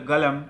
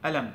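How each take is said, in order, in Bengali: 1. শব্দটি g ধ্বনি দিয়ে শুরু হয়। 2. শব্দটি সরাসরি একটি স্বরধ্বনি দিয়ে শুরু হয়। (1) "সৌদিরা বলে গালাম" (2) "ইজিপশিয়ান বা মিশরের লোকের, এরা বলবে অলাম"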